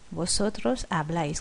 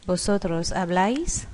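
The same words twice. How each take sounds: First: Habláis with the stress landing on the final A. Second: Said in the usual way. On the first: Shown as a demonstration. Teacher showing students the stressed A in habláis. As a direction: lean on the A of habláis, said softer. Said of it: "Es de notar el acento en la A". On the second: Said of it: "Es de notar el acento".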